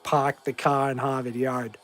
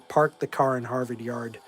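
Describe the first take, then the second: First: It is said in a strong Boston accent. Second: It is said in a milder, less Boston accent.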